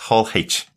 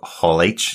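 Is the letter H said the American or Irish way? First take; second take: Irish; American. First: The letter is said the Irish way. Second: The letter is said the American way. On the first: "as we would say over here" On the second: "Americans call it H, so Hall H sounds much easier"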